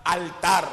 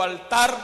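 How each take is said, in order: First: Second call dropped lower and heavier; prophet repeating, solemn. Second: Summoning the altar with a rising call; prophet calling the altar. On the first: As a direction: repeat it lower, grave and final. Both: Retold or imitated. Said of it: "le dijo".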